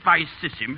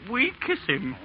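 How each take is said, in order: First: It is said the old anglicized way. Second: It is said the new classical way. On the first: This is the traditional style. The speaker calls it right. "instead of" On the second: This is the new style being imposed. The speaker calls it wrong. "you'd make him say"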